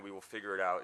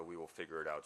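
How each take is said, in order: First: Said in the usual way. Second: The dad line said much softer, dropping away; a soft aside naming the story; softly. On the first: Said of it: "This classic dad line". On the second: Shown as a demonstration. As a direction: let "we will figure it out" fall to a soft murmur. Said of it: "a "we will figure it out" story".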